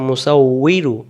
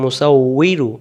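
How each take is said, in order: First: The consonant before 'i' is a 'w' sound. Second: The consonant before 'i' is a 'w' sound.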